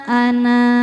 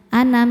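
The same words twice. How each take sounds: First: The final vowel is held long. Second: The final vowel is short. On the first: The reader stops at this word. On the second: The reading continues without stopping. "seperti nun fathah tanpa alif"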